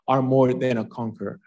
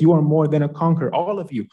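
First: Said in the usual way. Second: Fast and loud, preaching it out; rousing declaration. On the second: Real, not acted. Preacher lifting up his listeners, fast and loud. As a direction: proclaim it like a rallying cry.

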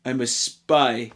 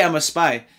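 First: Low, slow hammed-up Russian accent; mock Russian accent. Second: Said in the usual way. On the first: Film reviewer mocking the spies' obviousness, in a fake Russian accent. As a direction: put on a crummy Russian accent. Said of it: "I'm a Russian spy".

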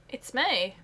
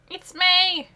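First: Said in the usual way. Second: Loud, high joyful call; excited announcement. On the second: Acted. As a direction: announce her like big news.

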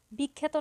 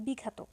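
First: বিখ্যাত said as "bikkhæto"; actual pronunciation. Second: বিখ্যাত said as "bikhato"; hypothetical open vowel. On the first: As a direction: put an æ in the middle of বিখ্যাত. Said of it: "বিখ্যাত না হয়ে হতো". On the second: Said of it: "না হয়ে হতো". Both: Shown as a demonstration.

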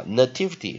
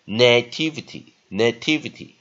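First: "nativity" with a light, reduced "nuh"; weak first vowel. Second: "nativity" as NAY-TIV-ity; strong first syllable. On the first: Teacher recapping the upper reading, "nativity" with weak first syllable. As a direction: say "nativity" as nuh-TIV-ity. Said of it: "nativity弱音". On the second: Teacher recapping the strong option, "nativity" with stressed first syllable. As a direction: give "na" in "nativity" a full stressed long vowel. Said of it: "好，强音". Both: Shown as a demonstration.

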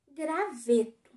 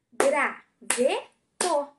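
First: Said in the usual way. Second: "Graveto" very slow, Gra - ve - to; three loud, separate beats on "Graveto"; syllable by syllable. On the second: Shown as a demonstration. Teacher counts syllables for pupils, "Graveto" split into Gra, ve, to. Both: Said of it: "Três sílabas também".

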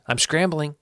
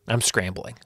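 First: Higher, stressed scrambling; emphatic repeat. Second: Said in the usual way. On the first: Shown as a demonstration. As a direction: lean on scrambling.

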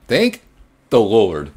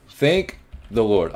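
First: Loud, pitch jumping up on thank; relieved exclamation. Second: Slow, drawn-out sigh of thanks; slow relief. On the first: Player surviving the night shift, loud relieved cry. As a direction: burst out with relief. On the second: Player surviving the night shift, slow grateful sigh. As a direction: savor the relief, slowly. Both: Real, not acted.

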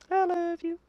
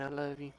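First: Very high, soft singsong; cutesy falsetto. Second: Quiet, low affectionate murmur; soft apology. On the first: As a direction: coo it in a tiny squeaky voice. Repeats it in silly falsetto. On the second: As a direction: make up gently after the insult. Soft apology after insult. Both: Pretend.

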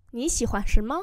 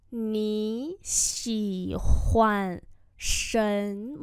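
First: Said in the usual way. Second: Nǐ xǐ huàn shen me drawn out word by word; slow dictation pace for students; slow teacher demo; very slow model. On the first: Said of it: "slow repeat follows". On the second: Shown as a demonstration. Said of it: "slow model repeat".

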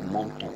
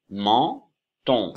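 First: Said in the usual way. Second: Men-ton détaché, on final net; menton appuyé, plus fort. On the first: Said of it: "c'est ça". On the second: Shown as a demonstration. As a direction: insistez sur menton. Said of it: "il s'écrit E N. Mais à la fin, il y a on aussi".

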